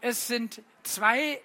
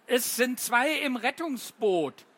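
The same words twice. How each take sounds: First: Zwei slowed and lifted with a rise; stress on zwei. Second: Zwei stressed with a falling close. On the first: Poet hinting at the riddle, stressing zwei. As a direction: lean on zwei, asking. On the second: Poet repeating the riddle line to the children, falling on zwei. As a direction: land firmly on zwei. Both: Shown as a demonstration. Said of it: "das Gedicht legt euch rein".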